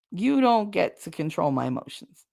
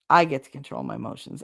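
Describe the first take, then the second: First: "You" leaned on first, the rest level; stress on you. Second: "I" set apart and weighted, lower and calmer; stress on I. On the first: Telling her family firmly, weight on "You". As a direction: point the finger with "You". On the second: Telling herself and viewers, weight on "I". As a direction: claim it with "I". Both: Shown as a demonstration.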